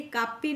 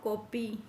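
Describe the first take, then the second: First: कापी said as "kaapi"; wrong long A. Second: कॉपी said slowly as "kopee"; rounded O vowel. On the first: Teacher showing the reading to avoid, कापी with AA. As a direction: open first vowel AA in कापी. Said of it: "नहीं बोलेंगे". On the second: Teacher giving the correct reading, slow कॉपी with O. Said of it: "ओ का स्वर". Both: Shown as a demonstration.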